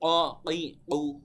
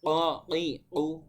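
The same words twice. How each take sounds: No difference in how they are said.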